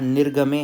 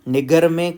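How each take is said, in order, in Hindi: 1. g से पहले की r ध्वनि बोली जाती है। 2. g से पहले की r ध्वनि छोड़ दी जाती है। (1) "यहाँ निर्गमे है" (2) "कुछ लोग बोलते हैं, निगर नहीं है"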